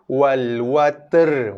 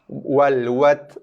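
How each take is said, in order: First: The t and r are blended into one sound. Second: The final r is not sounded at all. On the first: "Pun ada yang baca macam tu" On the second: "Ra tak bunyi langsung"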